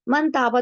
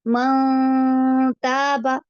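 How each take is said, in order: First: The n is pronounced clearly and quickly. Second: The n is hidden in a held nasal sound. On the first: "normally हम जैसे पढ़ते हैं" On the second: "तिलावत करते-करते म ताबा इससे एक ठहराव भी आएगा"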